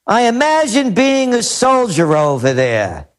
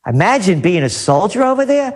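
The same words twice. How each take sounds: First: Measured read-aloud of a quote; announced quotation, unhurried. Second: Quick, mocking echo of a quote; rapid, scornful questioning repeat; incredulous repeat. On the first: Retold or imitated. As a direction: read it out deliberately, as someone else's words. Reads out a commentator's quote. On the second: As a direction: throw it back as a disbelieving question. Throws the quote back, mocking it.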